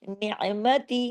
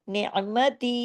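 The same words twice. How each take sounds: No difference in how they are said.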